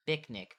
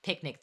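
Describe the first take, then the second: First: "bicnic" said with a B sound where the P should be; mispronounced with a b. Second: Said in the usual way. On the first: Shown as a demonstration. Explaining a dyslexic slip, says "bicnic" with a B. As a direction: say "bicnic", starting with B instead of P. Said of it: "they'll say, like". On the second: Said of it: "instead of saying".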